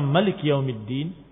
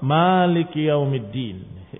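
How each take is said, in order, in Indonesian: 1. Vokal pertama pada maliki pendek. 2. Vokal pertama pada maliki panjang.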